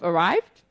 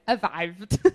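First: It is said in a plain English accent. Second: It is said in a German accent.

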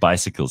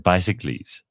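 First: The word is said in its ordinary way. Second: The word is said like a Greek hero's name. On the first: "Instead of bicycles" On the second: "words that should be pronounced like ancient Greek heroes"

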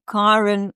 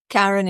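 First: The name has its Afrikaans pronunciation. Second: The name has its English pronunciation. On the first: This is how the owner of the name says it. "so I'm [name]" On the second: This is the version others use, reluctantly accepted. "Karen, if you must"

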